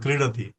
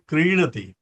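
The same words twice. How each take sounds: First: The vowel lengths are blurred in quick speech. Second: The first vowel is long, the last short. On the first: The speaker calls it wrong. "बोलण्याच्या ओघात आपण बोलून जातो" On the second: The speaker calls it right. "ते क्रीडती"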